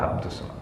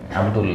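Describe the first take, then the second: First: The name ends in an S sound. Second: The name ends in an L sound. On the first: It is the form the grammar rule calls for. The speaker calls it right. "Yang benar adalah Abdus" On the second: It is the form the person is actually named. The speaker calls it wrong. "Nama aslinya apa?"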